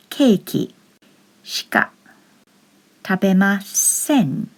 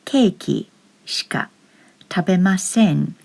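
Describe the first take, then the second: First: "Keiki shika tabemasen" split into separate words with long pauses; teacher spelling out each word slowly. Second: Said in the usual way. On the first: Shown as a demonstration. Teacher showing learners the sentence, word by word.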